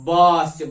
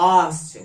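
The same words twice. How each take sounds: First: "বা" loud and lower, with a clear b; first sound isolated. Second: "আ" loud, the b lost with lips held apart; open-mouthed attempt. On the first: Teacher shows bird's first sound, "বা" loud and clear with its b. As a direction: punch out "বা" as the word's first sound. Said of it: "বা, এই প্রথম সাউন্ডটা". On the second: Teacher tests bird with mouth open, "আ" comes out without its b. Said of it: "হাঁ করে উচ্চারণ করতে পারো কিনা". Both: Shown as a demonstration.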